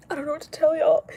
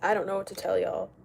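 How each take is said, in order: First: Much higher and louder insistence; exasperated repeat. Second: Said in the usual way. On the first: Real, not acted. Streamer fed up with lip filler comments, high exasperated voice. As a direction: throw it out high and loud.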